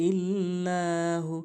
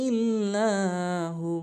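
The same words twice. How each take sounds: Both takes have the same delivery.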